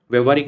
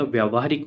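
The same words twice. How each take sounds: First: व्यवहारिक said with a short व्य, vyav-haa-rik; wrong spelling form. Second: व्यावहारिक said with a long व्या, vyaa-vhaa-rik; correct form. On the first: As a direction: flag the mistaken व्यवहारिक, a touch louder. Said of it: "नहीं होता". (व्यवहारिक का गलत रूप, छोटे व्य के साथ) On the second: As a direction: calmly model व्यावहारिक as the right form. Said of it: "होता है". (व्यावहारिक का सही उच्चारण, लंबे व्या के साथ) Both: Shown as a demonstration.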